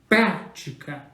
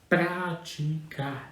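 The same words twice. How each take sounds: First: The stress is pushed in an exaggerated way. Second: The stress falls naturally without exaggeration. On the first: The speaker calls it wrong. "Você não faz assim" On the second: The speaker calls it right. "você já a faz de maneira natural"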